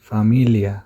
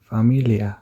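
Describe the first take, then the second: No difference in how they are said.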